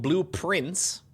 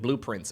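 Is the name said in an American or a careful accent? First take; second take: careful; American. First: It is said carefully, with a crisp final consonant. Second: It is said in an American accent. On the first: "The game is called Blueprints" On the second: "with a slightly more American accent"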